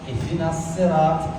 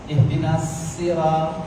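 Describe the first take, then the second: Both takes have the same delivery.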